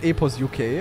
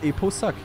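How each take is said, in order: First: The ending is spelled out as the letters U-K. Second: The ending is said as one syllable, 'suck'. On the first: The speaker calls it wrong. "It's not Epos UK" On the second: The speaker calls it right. "it's Eposuck"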